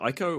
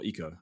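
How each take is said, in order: First: The first vowel sounds like the letter I. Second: The first vowel sounds like the letter E. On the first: "I don't know if it's an I or an E sound" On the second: "I don't know if it's an I or an E sound"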